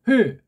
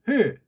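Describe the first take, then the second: First: The vowels are merged into one syllable. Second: The same.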